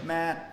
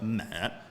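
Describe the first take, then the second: First: The pitch stays level and flat. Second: The pitch falls downward. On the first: "So that's one" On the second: "three is uh, mat"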